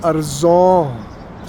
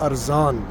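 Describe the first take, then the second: First: The last vowel sounds like a rounded o. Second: The last vowel sounds like an open a.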